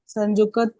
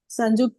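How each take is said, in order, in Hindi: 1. क ध्वनि पूरी तरह बोली जाती है, जैसे एक पूरा अक्षर। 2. क ध्वनि छोटी है और त के साथ जुड़ी हुई है। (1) "संयुक्त नहीं होगा ऐसे" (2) "क को छोटा उच्चारण करना है, जल्दी से उच्चारण करता है"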